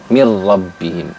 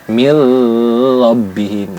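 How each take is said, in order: First: The merged r has no nasal hum. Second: The merged r carries a nasal hum. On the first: The speaker calls it right. "Hanya dimasukkan saja tanpa harus didengungkan" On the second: The speaker calls it wrong. "Enggak boleh"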